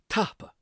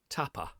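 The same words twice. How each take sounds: First: It does not sound like Spanish tapas. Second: It sounds like the Spanish word tapas. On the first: The speaker calls it right. "It is tapa" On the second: The speaker calls it wrong. "it's not tapa, like tapas"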